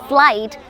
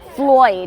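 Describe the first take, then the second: First: It is said in a standard, neutral accent. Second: It is said in a local Dublin accent. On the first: "Instead of saying flight" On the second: "he says Floyd"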